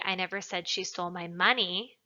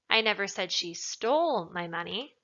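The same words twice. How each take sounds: First: The word 'money' is emphasized. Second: The word 'stole' is emphasized. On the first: She stole something other than the money. "Implies that she stole something else, not the money" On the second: She took it but did not necessarily steal it. "Implies that maybe she took it, but she didn't steal it necessarily"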